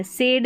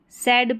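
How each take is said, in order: First: सेड with a closed "ay" vowel; mistaken "sayd" reading. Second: सैड with an open "a" vowel; correct "sad" pronunciation. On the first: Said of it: "सेड नहीं पढ़ेंगे". (सेड, "ए" स्वर के साथ) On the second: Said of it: "सैड पढ़ना है". (सैड, खुले "ऐ" स्वर के साथ) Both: Shown as a demonstration.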